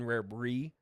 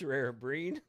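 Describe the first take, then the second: First: The final d sound is dropped. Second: The final d sound is pronounced. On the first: The speaker calls it wrong. "It's not can can rare brie" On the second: The speaker calls it right. "It's rare breed"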